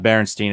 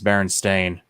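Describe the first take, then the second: First: The last syllable sounds like 'steen'. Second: The last syllable sounds like 'stain'. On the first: The speaker calls it wrong. "It's not Berenstein" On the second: The speaker calls it right. "it's Berenstain"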